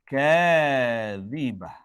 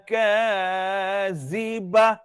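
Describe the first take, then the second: First: The middle consonant is a soft 'th' sound. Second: The middle consonant is a buzzing 'z' sound. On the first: The speaker calls it right. "Tak boleh desir pada huruf zal" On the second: The speaker calls it wrong. "Tak boleh baca laisa liwaqa'atiha kazibah"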